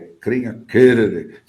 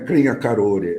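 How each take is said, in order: First: The name is said the way its own people say it. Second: The name is said in the common Portuguese way. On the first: The speaker calls it right. "que é a pronúncia dos índios" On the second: The speaker calls it wrong. "Não é Crenha Carore"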